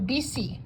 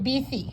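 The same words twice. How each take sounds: First: The middle consonant is an s sound. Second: The middle consonant is a th sound. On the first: The speaker lives outside Spain. "they don't have that same T H as Spain does" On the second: The speaker lives in Spain. "if you live in Spain, you will say bici"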